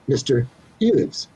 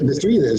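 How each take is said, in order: First: The phrase is said at a slower, separated pace. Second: The phrase is said quickly, words running together.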